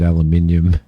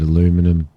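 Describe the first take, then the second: First: It is said the non-American way. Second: It is said the American way. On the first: "I pronounced it aluminium ... that's the way we pronounce it over here" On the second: "in America you pronounce it aluminum"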